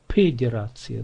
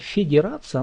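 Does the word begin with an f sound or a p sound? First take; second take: p sound; f sound. First: The word begins with a p sound. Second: The word begins with an f sound.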